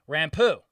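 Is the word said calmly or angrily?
calmly. It is said in a calm, plain way.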